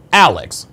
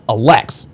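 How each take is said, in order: First: "Alex" stressed on the first syllable, AL-ex; "Alex" with the accent up front. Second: "Alex" wrongly stressed on the end, uh-LEX; "Alex" with the accent on LEX; second-syllable stress. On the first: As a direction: say "Alex" as AL-ex, falling away. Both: Shown as a demonstration. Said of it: "The accent is on the first part".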